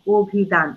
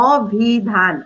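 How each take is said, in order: First: অভিধান said "obhidhan" with an o-sound; teacher showing how অভিধান is really said; spoken pronunciation. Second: অভিধান read as spelled, "ɔbhidhan"; teacher reading অভিধান as written. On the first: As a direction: round the first vowel of অভিধান. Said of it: "আমি কিন্তু উচ্চারণ করি". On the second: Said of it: "আমি লিখেছি". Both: Shown as a demonstration.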